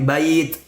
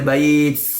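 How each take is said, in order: First: The final t is released with breath. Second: The final t has a hissing ts sound. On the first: The speaker calls it right. "tapi bait" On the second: The speaker calls it wrong. "tidak boleh bait"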